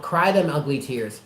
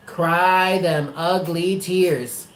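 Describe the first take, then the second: First: Said in the usual way. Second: A very slow cry them ugly tears; urging Allie to cry, every word slowed; slow emphatic urging. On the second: Real, not acted. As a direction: spell each word out slowly.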